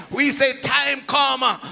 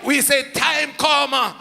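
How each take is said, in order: Both takes have the same delivery.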